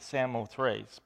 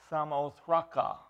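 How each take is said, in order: First: The name ends without a final vowel sound. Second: The name ends with a final vowel sound. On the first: This is how readers usually say it. "you want to pronounce it Samothrace" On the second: This follows the original Greek form. "but in the Greek, it's Samothraca"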